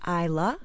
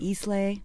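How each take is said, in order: First: The word ends in an 'ah' sound. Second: The word ends in an 'ay' sound. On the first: The speaker calls it right. "it's pronounced Isla" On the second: The speaker calls it wrong. "not Islay"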